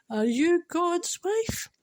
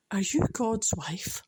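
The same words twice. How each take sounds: First: High, slow, tearful punchline; high voice, half crying, half laughing; through tears. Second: Said in the usual way. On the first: Real, not acted. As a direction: drag the question out while choked with emotion. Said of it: "through my tears and my emotion". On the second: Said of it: "I quite like that".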